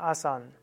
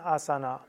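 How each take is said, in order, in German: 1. Das End-a fällt ganz weg. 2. Das erste a ist kurz, das End-a bleibt. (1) "Da lässt man eben das letzte A weg" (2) "die meisten Inder sagen nicht Asana, sagen Asana"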